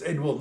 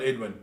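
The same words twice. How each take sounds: First: "Edwin" said as Edwill, ending in L. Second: "Edwin" ending in a clear N. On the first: Correcting himself to friends on the player's name, "Edwin" ending in L. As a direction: end "Edwin" on an L sound, Ed-will. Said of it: "not Edwin". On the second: Showing friends the mistaken name, "Edwin" ending in N. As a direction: say "Edwin" with the final N, Ed-win. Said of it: "It's Edwin, not Edwin". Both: Shown as a demonstration.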